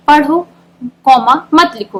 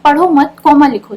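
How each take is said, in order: First: Slow "पढ़ो," then a pause, then "मत लिखो" as one phrase; teacher reading the comma after पढ़ो slowly. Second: "पढ़ो मत" as one phrase, a pause, then "लिखो"; teacher moving the comma to after मत. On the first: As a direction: break right after पढ़ो so it means "read, don't write". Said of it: "तो इससे हमें क्या पता चल रहा है कि पढ़ने के लिए कहा जा रहा है". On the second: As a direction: join "पढ़ो मत" and break before लिखो so it means "don't read, write". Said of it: "लेकिन अगर हम कॉमा चेंज कर देते हैं". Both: Shown as a demonstration.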